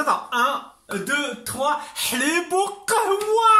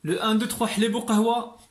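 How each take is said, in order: First: Much higher, excited chant. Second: Said in the usual way. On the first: Real, not acted. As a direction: sing out the count, rising high. Second take of the chant, much higher. (chanted, comptage excité et aigu)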